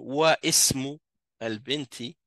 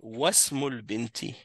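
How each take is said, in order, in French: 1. La voyelle de 'ism' est prononcée séparément. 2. La voyelle est omise et les mots se lient directement. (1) "je vais pas dire wa ismu al-binti" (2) "Je vais dire wasmul binti"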